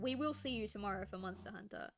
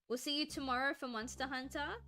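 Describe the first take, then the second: First: It ends falling, like a statement. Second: It ends rising, like a question.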